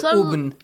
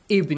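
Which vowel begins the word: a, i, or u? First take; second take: u; i. First: The word begins with a u vowel. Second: The word begins with an i vowel. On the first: The speaker calls it wrong. "You don't say Ubn" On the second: The speaker calls it right. "If you start from Ibn, the word Ibn, you say with kasra"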